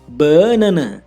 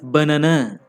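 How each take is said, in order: First: The stress is on the first syllable. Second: The stress is on the third syllable.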